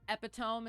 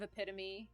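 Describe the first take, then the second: First: It is pronounced the way it is spelled. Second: It is pronounced the usual spoken way. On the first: The speaker calls it wrong. "I mispronounced words" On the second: The speaker calls it right. "instead of"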